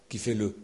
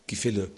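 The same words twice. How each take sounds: The two takes are said the same way.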